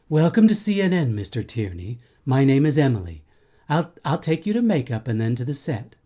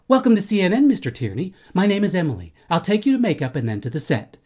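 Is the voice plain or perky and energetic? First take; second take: plain; perky. First: It is said in a plain, low-energy voice. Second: It is said in a perky, energetic voice.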